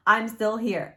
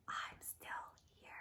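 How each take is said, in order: First: Said in the usual way. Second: Eerie ghostly whisper, barely audible. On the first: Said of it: "If you didn't hear me". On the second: Acted. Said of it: "she hears a whisper saying".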